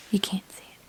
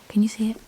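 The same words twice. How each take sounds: First: Breathy whisper, checking if the camera sees it; hushed camera check. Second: Said in the usual way. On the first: Real, not acted. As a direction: whisper it so no one else hears.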